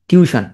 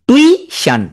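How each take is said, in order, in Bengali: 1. এটি 'tyoo-shun' ভাবে বলা হয়, দুই অংশের শব্দ। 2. এটি 'too-ish-un' ভাবে বলা হয়, 'i'-এর আগে 'u' থাকে। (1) "আমরা কি বলি?" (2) "টিউশন না বলে কি বললা?"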